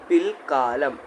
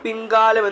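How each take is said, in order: First: The first syllable ends in an L sound. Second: The first syllable ends in an N sound. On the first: The speaker calls it right. "പിൽ ഇല്ല ലായാണ് വരിക" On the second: The speaker calls it wrong. "പലരും പിൻകാലം പിൻകാലം എന്ന് പറയും. അത് തെറ്റാണ്"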